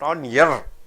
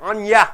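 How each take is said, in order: First: The word 'your' is said in its full form. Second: The word 'your' is reduced to a weak 'ya'. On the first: The speaker calls it wrong. "You don't say on your left" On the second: The speaker calls it right. "Your is pronounced as your"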